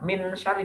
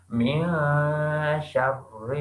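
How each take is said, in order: First: The n sound is pronounced fully and clearly. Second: The n sound is hidden and nasalized. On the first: The speaker calls it wrong. "bukan min syari" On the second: The speaker calls it right. "Dibaca samar-samar"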